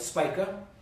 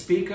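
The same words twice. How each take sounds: First: The first vowel sounds like 'i' in spike. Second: The first vowel sounds like 'ee' in speed. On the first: "or spike to Spica" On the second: "You speed to Spica"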